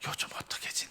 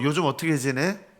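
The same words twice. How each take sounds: First: It is whispered softly. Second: It is spoken in a normal conversational voice.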